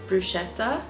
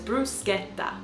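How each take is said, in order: First: It is said the way Australians say it. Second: It is said the way Italians say it. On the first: The speaker calls it wrong. "I've heard a lot of people in Australia saying bruschetta, which rubs me up the wrong way" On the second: The speaker calls it right. "but it's bruschetta"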